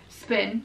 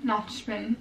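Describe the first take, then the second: First: "Spin" with a clean s sound; correct pronunciation. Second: "spin" said as "shpin"; slurred s as sh. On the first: Vlogger correcting her slip for viewers, "Spin" said with a crisp s. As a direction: say "Spin" with plain s, not sh. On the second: Vlogger showing her ironic habit, "spin" pronounced "shpin". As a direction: turn the s of "spin" into sh. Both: Shown as a demonstration. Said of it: "I just do that ironically".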